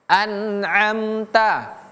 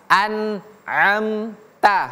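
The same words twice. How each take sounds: Both takes have the same delivery.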